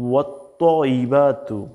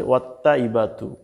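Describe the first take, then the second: First: Slow "ওয়াত্তাইবাতু" with rounded, heavy "tto"; heavy তোয়া. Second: Quick "ওয়াত্তাইবাতু" with light "tta"; written Bangla reading. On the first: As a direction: draw out "ওয়াত্তাইবাতু" as wat-toyyi-baa-tu. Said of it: "আমরা তোয়া দিয়ে বলবো". (ভারী তোয়া দিয়ে টেনে উচ্চারণ) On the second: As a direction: say "ওয়াত্তাইবাতু" as wat-ta-ibatu, unstretched. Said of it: "ওয়াত্তাইবাতু" বলবো না". (পাতলা তা দিয়ে ভুল উচ্চারণ) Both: Shown as a demonstration.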